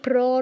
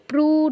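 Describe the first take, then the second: First: The syllable ends in an a vowel. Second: The syllable ends in an u vowel. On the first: "প্র নয়" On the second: "প্রু নয়"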